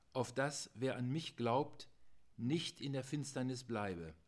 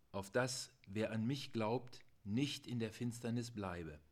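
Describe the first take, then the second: No difference in how they are said.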